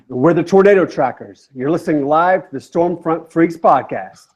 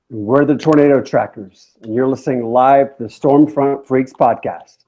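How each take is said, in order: First: It is said with high energy. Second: It is said with low energy.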